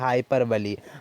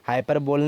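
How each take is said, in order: First: The word ends with a 'bly' sound. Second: The word ends with a 'bowl' sound. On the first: The speaker calls it right. "इसको क्या pronounce करते हैं? हाइपरबली" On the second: The speaker calls it wrong. "नहीं बोलना है, क्योंकि गलत होता है"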